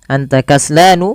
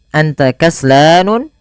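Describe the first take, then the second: First: The last word ends in a plain vowel. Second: The last word ends with an extra n sound. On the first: The speaker calls it right. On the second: The speaker calls it wrong.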